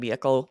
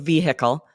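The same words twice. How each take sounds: First: The middle h is dropped. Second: The middle h is clearly pronounced. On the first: "this becomes a little more silent" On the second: "saying the H"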